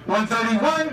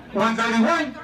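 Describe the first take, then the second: No difference in how they are said.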